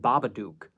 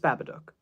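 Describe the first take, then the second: First: The last part rhymes with duke. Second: The last part rhymes with book. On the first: The speaker calls it wrong. "It's not supposed to be Duke. Everyone says Babadook" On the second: The speaker calls it right. "That's how it's pronounced if you have an American accent"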